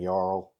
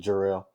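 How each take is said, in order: First: The name starts without a J sound. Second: The name starts with a J sound. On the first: The speaker calls it wrong. "he was like saying Jarl" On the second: The speaker calls it right. "instead of Jarrell"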